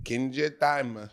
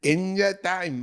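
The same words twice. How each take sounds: First: It is said in his own normal voice. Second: It is said in a put-on anime girl voice.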